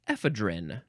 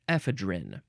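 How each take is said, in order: First: It is said the way British speakers say it. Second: It is said the way British speakers say it.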